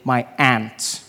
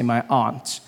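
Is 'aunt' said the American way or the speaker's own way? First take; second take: American; own way. First: Aunt is said the American way, like 'ant'. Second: Aunt is said in the speaker's own accent.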